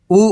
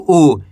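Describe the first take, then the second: First: ऊ said short; don't draw out the ऊ; quick, brief ऊ; short vowel. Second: ऊ drawn out, falling; long, held ऊ; long vowel. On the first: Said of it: "कम खींच के पढ़ेंगे". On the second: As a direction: stretch the ऊ. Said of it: "खींच के पढ़ेंगे". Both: Shown as a demonstration.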